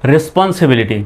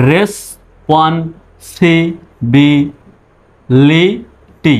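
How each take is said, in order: First: Said in the usual way. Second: Stretched out, each syllable drawn long; very slow teaching demo. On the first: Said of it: "এবার একসঙ্গে বলুন". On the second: Shown as a demonstration. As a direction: spell it out slowly for students. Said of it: "এবার দেখুন".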